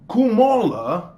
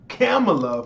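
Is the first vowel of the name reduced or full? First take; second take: reduced; full. First: The first vowel is a short reduced uh sound. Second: The first vowel is a full open ah sound. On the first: This is the speaker's own preferred way of saying it. "I say Kumala" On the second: This is the accepted correct pronunciation. "for those who want to be uh, correct on the pronunciation"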